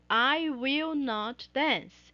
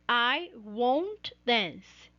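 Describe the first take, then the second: First: The negative is said as two separate words. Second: The negative is contracted into one short word. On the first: "as palavras separadas" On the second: "a contração"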